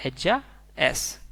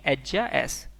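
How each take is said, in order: First: एज्जा एस said slowly and deliberately; slow it down for the class; slow model repeat. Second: Said in the usual way. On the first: Shown as a demonstration. Teacher repeating Spanish she is slowly for learners. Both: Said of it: "तो हम इसे बोलेंगे".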